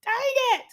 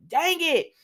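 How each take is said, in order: First: Drawn-out muttered version. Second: High, sharp cry of frustration; frustrated cry. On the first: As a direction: drag it out under the breath. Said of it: "you know". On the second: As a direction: snap it out high, fed up. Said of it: "she starts like". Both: Retold or imitated.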